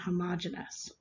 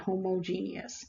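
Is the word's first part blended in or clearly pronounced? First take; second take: blended in; clearly pronounced. First: The first part of the word is blended in. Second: The first part of the word stands out clearly. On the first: The speaker calls it right. "They are pronounced" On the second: The speaker calls it wrong. "so that the first part is very obvious"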